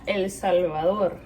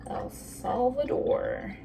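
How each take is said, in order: First: El Salvador in proper Spanish; Spanish accent. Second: El Salvador with an American accent. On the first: Vlogger showing how to say it properly, Spanish accent. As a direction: say the country's name with native Spanish pronunciation. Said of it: "if you wanna say it properly". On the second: Vlogger showing where her chocolate is from, American accent. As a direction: say the country's name the slow American way. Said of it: "say it in an American accent". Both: Shown as a demonstration.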